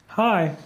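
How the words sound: It is said in a greeting card's voice.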